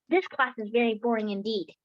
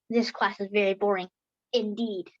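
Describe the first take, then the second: First: It is said without a pause inside. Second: It is said with a pause inside. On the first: The speaker calls it right. "I don't use a comma in my sentences" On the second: The speaker calls it wrong. "It's not"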